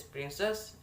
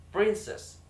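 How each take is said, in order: First: Said in the usual way. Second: PRIN of "princess" punched high and loud; first-syllable stress. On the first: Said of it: "and the syllable stress that is". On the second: Shown as a demonstration. Student showing word stress in "princess", first syllable stressed hard. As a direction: hit the first syllable of "princess", then drop. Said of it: "in the first".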